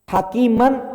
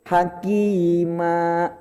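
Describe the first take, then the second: First: The word ends with an n sound. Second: The word ends on a long open vowel. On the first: The reader carries on without stopping. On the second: The reader stops at this word.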